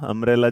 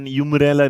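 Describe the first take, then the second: First: The word begins with an 'um' sound. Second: The word begins with a 'yoo' sound. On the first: The speaker calls it right. "अम्ब्रेला जिसे बोला जाता है" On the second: The speaker calls it wrong. "यूमरेला नहीं बोला जाता है"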